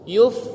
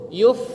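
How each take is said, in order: No difference in how they are said.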